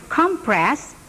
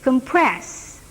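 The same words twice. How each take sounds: First: The stress is on the first syllable. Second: The stress is on the second syllable. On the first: It is used as a noun. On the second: It is used as a verb. "verbnya menjadi"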